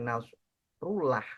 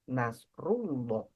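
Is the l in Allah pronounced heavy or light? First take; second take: light; heavy. First: The l sound is light and thin. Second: The l sound is heavy and dark. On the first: The speaker calls it wrong. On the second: The speaker calls it right. "maka ini pun kita baca tebal"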